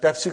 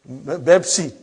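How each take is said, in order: First: It begins with p and has two syllables. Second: It begins with b and has two syllables. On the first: This is the original name of the drink. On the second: This is how Arabic speakers say it.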